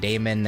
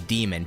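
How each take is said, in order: First: The first vowel sounds like 'ay'. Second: The first vowel sounds like 'ee'. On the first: The speaker calls it wrong. "But I said Damon" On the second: The speaker calls it right. "you should pronounce it as demon technically"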